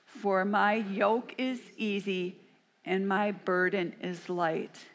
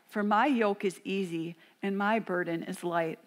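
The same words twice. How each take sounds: First: It is read very slowly. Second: It is read at a moderate pace.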